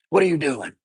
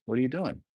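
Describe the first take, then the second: First: A louder, higher demanding what are you doing; sharp scolding question. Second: "What are you doing?" asked softly and kindly; gentle asking. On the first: Parent to child, a louder sharp demand. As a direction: snap it out like catching a kid at mischief. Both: Shown as a demonstration. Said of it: "there's a certain way I say it".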